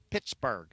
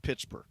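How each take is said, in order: First: "Pittsburgh" low, ending like "barg"; local-style Pittsburgh. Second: Said in the usual way. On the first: Retold or imitated. Host teasing how locals say the city, "Pittsburgh" as "Pittsbarg". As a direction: say "Pittsburgh" with a broad "ar" in the last syllable. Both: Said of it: "as they like to say".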